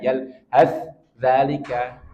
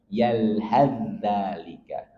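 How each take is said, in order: First: The first consonant is pronounced separately. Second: The first consonant merges into the next one. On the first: The speaker calls it wrong. "nanti saya terbaca yal has dzalika, nggak boleh" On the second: The speaker calls it right. "Dia langsung melebur ke za"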